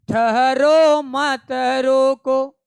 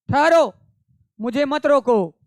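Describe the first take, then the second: First: ठहरो मत रोको sung slowly and loudly, drawn out; loud drawn-out chant of ठहरो मत रोको; chanted verse. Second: ठहरो spoken sharply, louder and higher, then मत रोको at speaking pace; spoken, forceful ठहरो; emphatic spoken. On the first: Acted. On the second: Shown as a demonstration. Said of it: "spoken explanation of verse".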